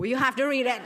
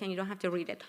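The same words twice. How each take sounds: First: "have" hit louder with a laugh; laughing, punch "have" in "you have to read it"; stress on have. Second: Said in the usual way. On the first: Shown as a demonstration. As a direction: correct yourself playfully, leaning on "have". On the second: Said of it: "No, you have to read it".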